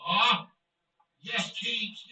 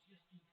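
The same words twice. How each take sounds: First: Loud, quick cheer of Yes, Keats; excited yes. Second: Yes, Keats barely murmured, far softer; quiet echo. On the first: Streamer cheering his scorer, excited celebration. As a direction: punch out Yes, Keats at full voice. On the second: Streamer repeating the cheer to himself, soft echo. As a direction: let Yes, Keats fade to a hush. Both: Real, not acted.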